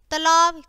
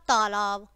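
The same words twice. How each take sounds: First: तालाब said "talaab", short first "a"; quick schwa in the first syllable of तालाब; louder mistaken तालाब, opening on short "ta"; wrong short vowel. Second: तालाब said "taalaab", long first "aa"; lower, correct तालाब opening on "taa"; correct long vowel. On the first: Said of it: "पहले हमारी अशुद्ध शब्द है". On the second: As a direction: stretch the first syllable of तालाब. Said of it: "और फिर शुद्ध है". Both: Shown as a demonstration.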